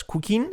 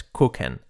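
First: "cooking" as "koo-keen", higher pitched; wrong pronunciation. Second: "cooking" as "kook-en", i like e; correct pronunciation. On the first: Teacher showing the error, mispronounced "cooking". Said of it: "No es cooking". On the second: Teacher correcting learners, correct "cooking". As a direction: open the i of "cooking" towards e. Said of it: "La I como una E". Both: Shown as a demonstration.

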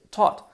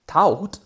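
First: "taught" with one open aw vowel; real pronunciation. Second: "taught" sounded as written, with an A-U glide; spelling pronunciation. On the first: Teacher models the spoken past "taught", one open vowel. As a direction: say "taught" as a single short "tawt". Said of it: "y es taught". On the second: Teacher shows how "taught" is written, sounding each vowel. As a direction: read "taught" by its letters, like "ta-oot". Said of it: "Fijaros que se escribe". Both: Shown as a demonstration.

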